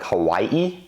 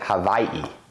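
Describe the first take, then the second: First: The middle consonant is a W sound. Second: The middle consonant is a V sound. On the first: "instead of pronouncing Hawaii like Hawaii" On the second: "I'm pronouncing it Hawaii, because the locals say they pronounce Hawaii with more of a V"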